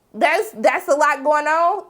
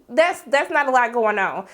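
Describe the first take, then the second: First: A LOT GOING ON drawn out slowly, rising in disbelief; incredulous echo question. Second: Said in the usual way. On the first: Acted. Vlogger throwing the boyfriend's excuse back, incredulous. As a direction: question "a lot going on", higher and slower, tune climbing.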